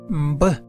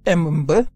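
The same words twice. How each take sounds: First: The m blends straight into the b. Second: The m is said as its own syllable. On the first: The speaker calls it right. "mais Mbe" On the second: The speaker calls it wrong. "ce n'est pas du tout Mbe"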